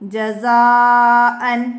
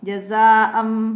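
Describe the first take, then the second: First: The word ends with an n sound. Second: The word ends with an m sound. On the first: The word is read on its own. "ഇവിടെ നമുക്ക് ജസാഅൻ എന്ന് പറയാം" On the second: The word is followed by a ba sound. "അവസാനത്തിൽ മീം വരുന്നു"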